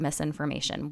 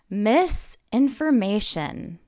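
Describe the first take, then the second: First: It is said smoothly as one word. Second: There is a pause after "miss."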